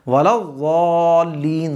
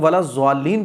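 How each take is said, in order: First: The consonant is a heavy, thick ḍ sound. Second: The consonant sounds like a z. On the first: The speaker calls it right. "ज़ात का मखरज निकलेगा" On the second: The speaker calls it wrong. "जो लोग वाला ज़्वालीन पढ़ते हैं गलत है"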